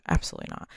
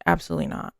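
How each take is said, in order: First: Breathy whispered no; whispered refusal. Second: Said in the usual way. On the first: Retold or imitated. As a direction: whisper it, dead certain. Same refusal repeated, whispered.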